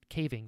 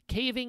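First: The final G sound is clearly pronounced. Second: The final G sound is dropped. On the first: "They have a G in there" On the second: "I'm from North Carolina. We don't say those"

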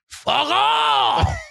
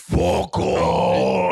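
First: It is said in a lighter, less hoarse voice. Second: It is said in a deeper, hoarser voice.

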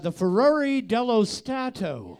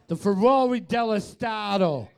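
First: It is said in a regular English accent. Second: It is said in a Boston accent.

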